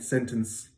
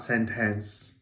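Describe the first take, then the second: First: The second syllable has a reduced vowel. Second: The second syllable has a full vowel. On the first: The speaker calls it right. "we hear something like ns" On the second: The speaker calls it wrong. "it's not sentence"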